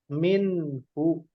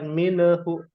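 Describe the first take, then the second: First: The word has two syllables, no added vowel. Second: The word has three syllables, an added vowel. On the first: The speaker calls it right. "Fajarat minhu" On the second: The speaker calls it wrong. "bukan minehu"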